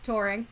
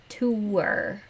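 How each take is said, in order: First: Touring said as tor-ing, one vowel; Touring, first syllable like tore. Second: Tour said as too-er, two syllables; Tour with two vowels. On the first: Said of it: "how do you say that word?". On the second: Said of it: "There are two vowels in that word". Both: Shown as a demonstration.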